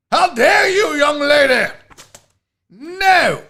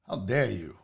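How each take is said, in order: First: High, loud English outrage; English accent. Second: Low, soft English affront; quiet English indignation. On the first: Host mock-scolding a viewer, shouted English accent. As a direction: shout it as a scandalized English gent. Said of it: "it's fun to do the accents". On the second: Host showing off accents to chat, low English indignation. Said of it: "Katie said the accents". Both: Acted.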